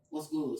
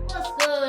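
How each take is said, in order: First: It is said in a deep voice. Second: It is said in a normal voice.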